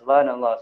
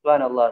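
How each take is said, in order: Both takes have the same delivery.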